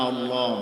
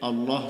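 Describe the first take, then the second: Both takes have the same delivery.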